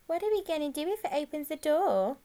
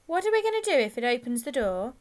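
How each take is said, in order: First: Higher, put-on mocking-style echo; stalling echo in an altered, higher voice; echoing the question. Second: Put-on louder, urgent boy's question; sudden anxious, loud question; worried gang member. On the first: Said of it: "Ringo echoed the question". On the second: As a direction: blurt it out as a worried boy. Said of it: "said one of the others suddenly". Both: A narrator's reading.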